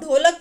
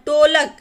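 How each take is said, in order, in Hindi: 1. पहला व्यंजन सांस के साथ बोला जाने वाला, महाप्राण 'dh' है। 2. पहला व्यंजन एक सादा, अल्पप्राण स्पर्श व्यंजन है। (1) "जो सही उच्चारण है वो ढोलक का है" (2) "लेकिन बोलते क्या टोलक"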